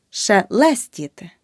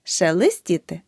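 First: Шелестіти with a clear е in the second syllable; correct vowel demo. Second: Шелестіти with и in the second syllable; the mistake in шелестіти, и for е; wrong vowel demo. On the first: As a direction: say шелестіти as "she-LES-tity", middle е spelled out. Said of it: "Запам'ятай". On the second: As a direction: say шелестіти wrongly as "she-lys-tity". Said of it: "Не". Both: Shown as a demonstration.

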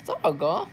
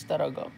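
First: Surprised question. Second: Said in the usual way. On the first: Real, not acted.

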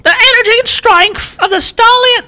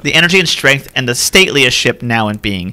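First: Hammed-up British accent, very high and strained; badly faked British royal, pitched way up. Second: Said in the usual way. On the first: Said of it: "all this in a British accent". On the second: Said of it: "I can't do it".

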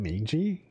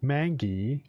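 First: "Mingy" said with a soft g, like a j; questioning "Mingy" with g as in "gem"; soft-g pronunciation. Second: "Mangy" said "MANG-ghee", with a hard g; questioning "Mangy" with g as in "go"; hard-g pronunciation. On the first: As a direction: try "Mingy" as "MAYN-jee". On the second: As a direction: say "Mangy" to rhyme with "tangy", but with a hard g. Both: Shown as a demonstration. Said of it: "Maybe I've been pronouncing the word wrong".

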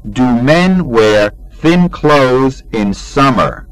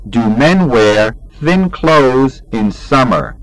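No difference in how they are said.

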